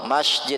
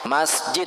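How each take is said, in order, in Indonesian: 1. Diucapkan dengan bunyi sh. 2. Diucapkan dengan bunyi s biasa. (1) "kalau pakai shin itu bukan rumah Allah" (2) "Kalau masjid artinya itu rumah Allah"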